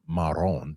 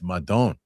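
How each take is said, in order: First: The middle consonant is an R sound. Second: The middle consonant is a D sound. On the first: The speaker calls it wrong. "It's not Maron" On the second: The speaker calls it right. "It's Madon. M A D O"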